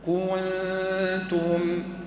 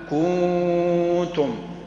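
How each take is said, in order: First: The first vowel is short and the n is clear. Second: The first vowel is lengthened and the n fades. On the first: The speaker calls it right. "الصواب نضم ثم نرجع إلى السكون" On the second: The speaker calls it wrong. "ولا نقول كنتم كو، كاف بعدها واو والنون لا أثر لها"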